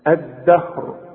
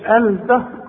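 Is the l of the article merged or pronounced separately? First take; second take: merged; pronounced. First: The l merges into a doubled d sound. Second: The l is pronounced clearly before the d. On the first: The speaker calls it right. "الدال الدهر" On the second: The speaker calls it wrong. "ما تقولش الدهر"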